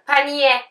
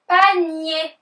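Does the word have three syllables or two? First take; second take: three; two. First: The word ends with an extra 'yeh' syllable. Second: The word ends in a soft 'nee' sound. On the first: The speaker calls it wrong. "Pe-ni-ye değil" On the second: The speaker calls it right. "Pe-ni diye okunması"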